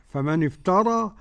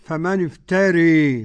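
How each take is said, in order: First: The final vowel is an open 'a' sound. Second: The final vowel leans strongly toward 'e'.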